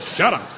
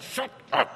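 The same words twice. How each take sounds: First: Louder, higher, abrupt silencing command; curt order. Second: Forceful stage whisper; whispered order. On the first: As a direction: cut them off loudly. Sponsor's curt order retold. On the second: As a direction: silence them in a harsh whisper. Repeats sponsor's order as whisper. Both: Retold or imitated.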